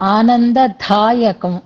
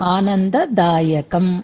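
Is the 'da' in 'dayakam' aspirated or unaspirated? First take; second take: aspirated; unaspirated. First: The 'da' sound is said with aspiration. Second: The 'da' sound is said without aspiration. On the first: The speaker calls it wrong. "అనవసరమైన చోట్ల ఒత్తులు పలకడం. ఆనందదాయకం అంటున్నారు, అక్కర్లేదు" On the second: The speaker calls it right. "దాకక్కడ ఒత్తు ఉండదు, ఆనందదాయకం అనే ఉంటుంది"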